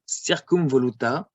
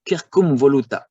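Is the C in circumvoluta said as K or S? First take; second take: S; K. First: The C is a soft S sound. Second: The C is a hard K sound. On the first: The speaker calls it wrong. "that's not accepted" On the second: The speaker calls it right. "That's better"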